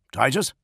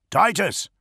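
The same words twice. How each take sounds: First: TITUS with a rising, questioning tune; questioning call. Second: TITUS pitched high, then falling; insistent call. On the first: First Master checking the silent link, questioning. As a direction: say "Titus" as a question, lifting at the end. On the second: First Master calling into a dead link, insistent. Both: A narrator's reading.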